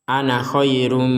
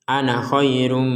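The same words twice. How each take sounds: Both takes have the same delivery.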